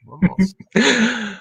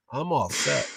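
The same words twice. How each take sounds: First: "I'm all set" said slow and higher, each word stretched out; drawn-out mock boast. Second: Said in the usual way. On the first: Host jokes to the guest that he is ready for a Jawa attack, a slow, higher mock boast.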